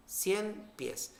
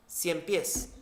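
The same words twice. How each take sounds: First: "Cien pies" unido en una palabra, acento al final en "pies"; júntalo en una sola palabra aguda. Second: "Cien pies" como dos palabras, cada una con su acento; dos palabras separadas. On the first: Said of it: "se convierte en una palabra aguda". ("Cien pies" como "ciempiés", palabra aguda) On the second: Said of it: "Pies es una palabra monosílaba". ("Cien pies" dicho como dos palabras sueltas) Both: Shown as a demonstration.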